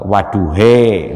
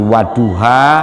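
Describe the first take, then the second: First: The word ends with an 'e' vowel. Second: The word ends with an open 'a' vowel.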